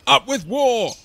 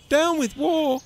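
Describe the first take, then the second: First: High, loud war chant; lusty storybook battle cry; shouting. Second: High, hooted slogan; high-voiced little protester; hooting. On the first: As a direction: belt out a rallying slogan. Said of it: "they shouted". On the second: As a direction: hoot it in protest. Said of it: "he hooted". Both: A narrator's reading.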